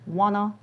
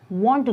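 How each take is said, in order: First: The words are reduced to wanna. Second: Both words are said in full.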